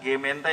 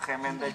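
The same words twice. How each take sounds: First: The word begins with a hard g sound. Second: The word begins with a throaty kh sound. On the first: This is how the word is written. "Tulisnya kan Gemente ya" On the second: This is how the Dutch actually say it. "tapi pelafalannya"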